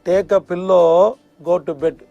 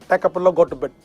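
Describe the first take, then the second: First: The phrase is said slowly and clearly. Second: The phrase is said quickly and run together.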